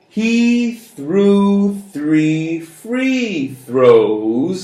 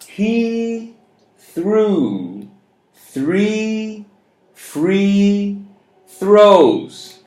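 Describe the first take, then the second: First: The sentence is spoken a little fast. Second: The sentence is spoken at a moderate pace.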